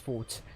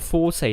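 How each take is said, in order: First: The word is said with one syllable. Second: The word is said with two syllables. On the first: A strong point. The speaker calls it right. "then it's pronounced as fort" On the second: The musical term for dynamics. The speaker calls it wrong. "I know it's not called Forte in this situation"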